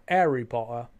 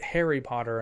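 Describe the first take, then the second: First: "Harry" said without the H, British-style; dropped H. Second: Said in the usual way. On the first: Shown as a demonstration. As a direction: say "Harry Potter" as 'Arry Pottah. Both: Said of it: "Brits didn't pronounce the H".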